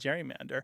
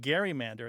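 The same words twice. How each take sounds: First: The word begins with a soft G sound. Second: The word begins with a hard G sound. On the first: This is how one man thought it should be said. "he believes it should be gerrymander" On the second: This is how most people said it then. "everyone else is saying gerrymander at the time"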